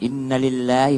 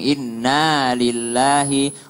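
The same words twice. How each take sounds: First: The first word is said short, not held. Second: The first word is held long. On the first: The speaker calls it wrong. "Banyak yang inna lillahi padahal innanya panjang" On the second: The speaker calls it right. "innanya panjang"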